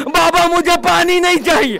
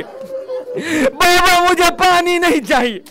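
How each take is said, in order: First: Put-on higher, fast, pressing child's cry; desperate plea. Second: Higher, falling away into a sob; breaking plea. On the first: Little girl begs her father, urgent and grieving. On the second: Little girl repeats her plea to her father, voice breaking. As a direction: let the plea break and fade. Child pleading with departing father. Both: A narrator's reading.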